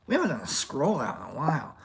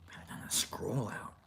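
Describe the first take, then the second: First: Said in the usual way. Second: Breathy whispered line. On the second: Acted. Vlogger whispers the idea before saying it. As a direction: whisper it to yourself.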